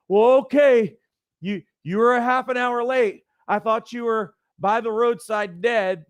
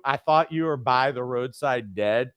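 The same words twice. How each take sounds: First: Worried mom. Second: Said in the usual way. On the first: Retold or imitated. Mom tells late teenage son she feared him dead, high and fretful. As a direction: play the mom who always fears the worst. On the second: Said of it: "did your mom ever tell you".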